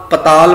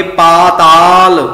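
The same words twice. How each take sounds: First: ਪਤਾਲ with quick pa, pa-taal; short first vowel. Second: ਪਾਤਾਲ loud and drawn out, paa-taal; long first vowel. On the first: Teacher warns against this reading, ਪਤਾਲ begun short. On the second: Teacher says we shall read it so, ਪਾਤਾਲ with long aa. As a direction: hold the opening aa of ਪਾਤਾਲ. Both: Shown as a demonstration. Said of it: "ਪਤਾਲ ਪਾਠ ਨਹੀਂ ਕਰਨਾ".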